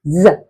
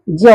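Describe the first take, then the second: First: "ज" as a low, buzzed zza; vibrating Z sound. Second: "ज" as a plain j, as in jug; J sound. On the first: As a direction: start "ज" with a light vibration. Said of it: "कंपन होते हुए ज निकलना चाहिए". ("ज" हल्के कंपन के साथ ज़) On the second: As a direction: say "ज" without any buzz. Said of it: "जे का उच्चारण क्या था". ("ज" बिना नुक्ते वाला) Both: Shown as a demonstration.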